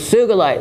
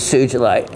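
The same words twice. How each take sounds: First: The G is hard, as in geese. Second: The G is soft, like a J. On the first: The speaker calls it right. "It is with a hard G, as in geese" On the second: The speaker calls it wrong. "it's been for decades pronounced as Sugilite"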